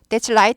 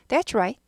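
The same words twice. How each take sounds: First: The word starts with a tongue-tap L sound. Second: The word starts with a rolled R sound. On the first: It means that is light. The speaker calls it wrong. "that's right 하면은 그것은 빛이다가 돼버립니다" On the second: It means that is correct. The speaker calls it right. "그래야지 맞다는 거예요"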